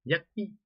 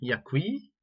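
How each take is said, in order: First: The final vowel is cut short. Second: The final vowel is held long. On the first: "jadi pendek" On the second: "yakwi panjang"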